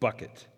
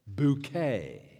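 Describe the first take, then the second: First: It is said like the English word bucket. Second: It is said French-style, ending in an ay sound. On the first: It is the plain name of a working-class family. "that's not the way Hyacinth pronounces her last name" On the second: It is a pretension to a higher class. "She insists on the French pronunciation"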